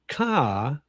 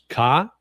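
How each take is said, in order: First: The word is said with a falling pitch. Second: The word is said on a level high tone. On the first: "which is falling tone" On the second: "which is up, uh, which is high tone"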